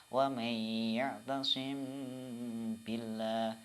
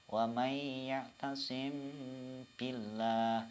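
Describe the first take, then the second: No difference in how they are said.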